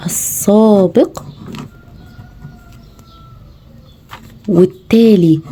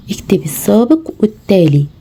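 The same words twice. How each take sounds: First: Each word drawn out very slowly, long pauses between; slow, spaced dictation to a young pupil. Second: Said in the usual way. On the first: Shown as a demonstration. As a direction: dictate "السابق" and "والتالي" slowly to a child, word by word. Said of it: "ما تنسيش تقولي له اكتب". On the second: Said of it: "التمرين ده مهم جدًا".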